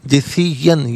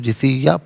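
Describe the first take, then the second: First: The word ends with an n sound. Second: The word ends on a long vowel. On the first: The reading continues without stopping here. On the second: The reading stops at this word.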